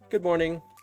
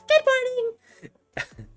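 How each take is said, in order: First: It is said in the narrator's plain voice. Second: It is said in a voice resembling Koharu.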